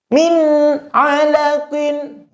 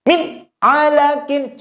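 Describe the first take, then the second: First: The n sound is clear with brief resonance. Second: The n sound stops abruptly with no resonance. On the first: The speaker calls it right. "yang betul" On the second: The speaker calls it wrong. "betul-betul nunnya itu tidak ada sisa suara"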